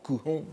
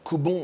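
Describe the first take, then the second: First: The middle consonant is an 'h' sound. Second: The middle consonant is a 'b' sound. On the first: This is the strictly correct reading. The speaker calls it right. "il faudrait prononcer correctement Kuhon" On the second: This is the reading most people use. The speaker calls it wrong. "on prononce le plus souvent Kubon"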